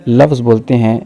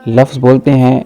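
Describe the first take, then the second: The two takes are said the same way.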